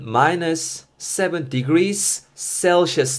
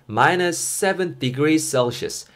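First: Each word is said separately, as written. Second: The words run together with natural linking. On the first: "생긴 꼬라지는" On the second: "연음하가 자연스럽게 넘어가면은"

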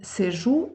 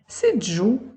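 First: The middle consonant is a plain 'zh'. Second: The middle consonant is an affricate 'dzh'. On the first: The speaker calls it wrong. "в жодному випадку не «сижу»" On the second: The speaker calls it right. "нормативного вжитку звуків «дж» і «дз»"

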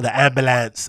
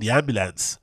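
First: It is said in an imitated American accent. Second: It is said in the speaker's ordinary accent.

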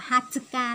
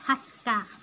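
First: Every syllable, including tsu, is pronounced clearly. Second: The tsu syllable is swallowed and barely heard. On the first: "nó đâu có nói rõ ràng ra là Hatsuka đâu" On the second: "âm chư nó đã bị nuốt rồi"

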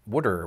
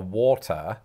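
First: It is said with a Philadelphia pronunciation, like 'wooder'. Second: It is said with a British pronunciation. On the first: "They pronounce it something like wooder" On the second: "I order a water"

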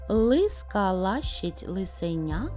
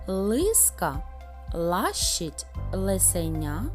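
First: It is said at a fast pace. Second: It is said at a slow, careful pace.

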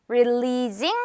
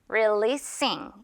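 First: The consonant before -ing is a voiced z sound. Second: The consonant before -ing is a voiceless s sound. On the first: The speaker calls it wrong. "아니고" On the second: The speaker calls it right. "이렇게 S 발음으로 끝나기 때문에"

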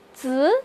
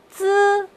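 First: The pitch rises from mid to high. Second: The pitch stays high and level.

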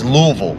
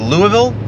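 First: The middle 'i' sound is dropped. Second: The middle 'i' sound is pronounced. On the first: The speaker calls it right. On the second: The speaker calls it wrong.

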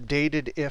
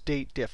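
First: It is said in three syllables, 'dated if'. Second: It is said in two syllables, 'date diff'. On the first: The speaker calls it wrong. "I always mispronounce it" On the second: The speaker calls it right. "It's the date diff"

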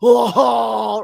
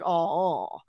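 First: It is a shocked, gasping oh. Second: It is a flat, disappointed oh.

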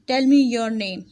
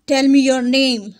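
First: It is said calmly, as a plain statement. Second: It is said forcefully, in an angry tone. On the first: It is an ordinary request without strong feeling. "सिर्फ full stop होता, तो मैं इसको read करती इस तरीके से" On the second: The speaker is demanding it in anger. "मैंने इसी एक्सक्लेमेशन साइन को देखकर इसको इस लहजे में बोला है"

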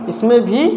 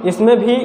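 The two takes are said the same way.

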